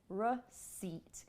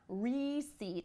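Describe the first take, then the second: First: The first syllable is reduced to a schwa. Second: The first syllable has a full vowel. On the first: The speaker calls it right. "it's receipt, receipt, r" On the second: The speaker calls it wrong. "It's not receipt"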